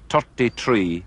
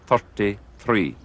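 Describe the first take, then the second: First: The words begin with a plain T sound. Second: The words begin with a TH sound. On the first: "Some Irish people have a difficulty with pronouncing the T H sound" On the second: "instead of"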